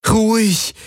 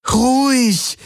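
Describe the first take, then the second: First: High, pleading hush to calm the beast. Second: Higher, more desperate plea; almost crying out to calm it; urgent pleading. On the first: Kirai to the rearing Schartak, pleading high. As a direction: beg the animal to settle down. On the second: Kirai to the rearing Schartak, desperate high plea. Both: A narrator's reading. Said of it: "flehte Kirai ihn an".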